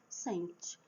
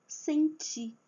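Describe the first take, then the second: First: "Sente" low and soft, as SEN-ti with weak ending; wrong stress on first syllable. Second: "senti" raised in pitch, as sen-TI; stress on last syllable. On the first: Teacher shows how meaning changes, "Sente" stressed on SEN. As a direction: drop the last syllable of "Sente". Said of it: "falando desse jeito". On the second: Teacher lists examples, "senti" stressed on final TI. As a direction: land on the TI of "senti". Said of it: "a última sílaba é a forte". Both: Shown as a demonstration.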